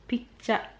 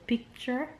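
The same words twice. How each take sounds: First: It is said in a Jamaican accent. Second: It is said in a standard, non-Jamaican accent.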